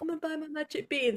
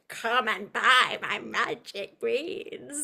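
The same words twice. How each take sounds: First: It is said flatly, with little energy. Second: It is said with big, theatrical energy.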